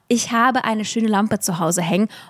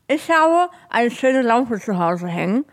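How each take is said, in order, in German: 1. Die Wörter werden klar gesprochen, mit freier Artikulation. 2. Die Wörter klingen gedämpft, als wäre etwas zwischen den Zähnen. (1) "Und schon klingt einfach deine Aussprache und der Klang ist wundervoll" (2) "machst du halt einen Daumen oder so Finger zwischen die Zähne und sagst"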